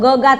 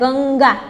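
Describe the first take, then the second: First: The first syllable has no nasal sound. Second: The first syllable has a nasal sound. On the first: "જો તમે અનુસ્વાર કાઢી લો ને તો ગગા થઈ જાય" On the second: "પણ અહીંયા અનુસ્વાર મૂકો તો કેવું થાય?"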